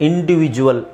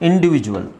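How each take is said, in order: The two takes are said the same way.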